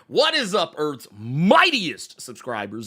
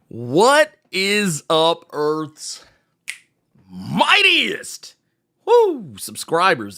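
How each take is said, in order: First: The greeting is said more quietly. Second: The greeting is said very loudly. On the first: The speaker calls it right. "Let me bring that down a little taste" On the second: The speaker calls it wrong. "I just realized how loud I was"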